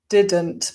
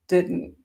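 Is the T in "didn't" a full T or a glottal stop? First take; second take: full T; glottal stop. First: The T is pronounced as a full T. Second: The T is replaced by a glottal stop.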